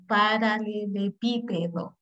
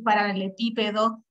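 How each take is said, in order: First: "paralelepípedo" drawn out slowly in separate syllables. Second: Said in the usual way. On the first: Shown as a demonstration. Teacher showing how to manage a hard word, "paralelepípedo" slow and syllabified. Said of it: "lo digo en sílabas y lento". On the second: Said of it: "si yo no puedo decir paralelepípedo rápido".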